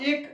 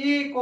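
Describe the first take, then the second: First: এক blended into one syllable, ek; এক pronounced whole, not spelled; said as one word. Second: এ ক said as two separate letters, এ then ক; the letters এ and ক named apart; spelled out letter by letter. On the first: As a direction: say এক as a single word, ek. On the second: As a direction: spell এ ক slowly, one letter at a time. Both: Shown as a demonstration. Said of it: "কিন্তু উচ্চারণ কি করছি?".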